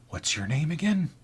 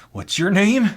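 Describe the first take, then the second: First: Softer, raised-pitch question; odd coworker's introduction. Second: High-pitched, forceful repeat; odd coworker's insistent question. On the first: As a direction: ask it quietly, as the weird stock guy. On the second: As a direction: press the question as the weird stock guy. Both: Acted. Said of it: "introduced himself like this".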